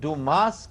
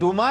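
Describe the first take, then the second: First: The name ends with a sounded final s. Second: The name ends on a vowel, with no s. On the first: "लेकिन डूमास कहा जाता है" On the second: "ये basically डूमा ही है"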